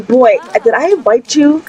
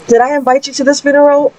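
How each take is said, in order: First: Put-on a touch of scolding the boy; raised pitch, lightly annoyed; mildly indignant question. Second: High, quick exasperated scolding; indignant, fast, higher. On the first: Mother scolding the boy who broke in, mild indignation. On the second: Retold or imitated. Mother confronting the intruder at the funeral, fast and indignant. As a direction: rattle it off, higher and more annoyed. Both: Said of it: "I am super upset right now".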